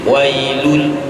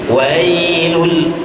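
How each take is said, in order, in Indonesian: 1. Vokal pertama dibaca pendek. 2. Vokal pertama dibaca panjang.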